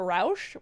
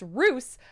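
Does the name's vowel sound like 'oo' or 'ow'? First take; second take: ow; oo. First: The vowel is an 'ow' sound. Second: The vowel is an 'oo' sound. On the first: This is closer to the Austrian original. "it should probably be closer to Rausch" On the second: This is how the family says it. "it's Roos, like a rooster without the tur"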